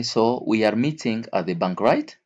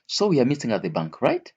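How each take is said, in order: First: Said in the usual way. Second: "right?" swoops far up like a question asking for a yes; checking tune. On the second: Shown as a demonstration. Teacher checks the listener is following, rising on "right?". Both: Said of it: "You use it when you want to confirm".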